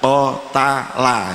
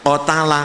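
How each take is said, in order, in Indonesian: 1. Kata ini diucapkan lambat. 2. Kata ini diucapkan cepat. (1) "kalau pelan-pelan" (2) "kalau cepatnya gerakannya cepat"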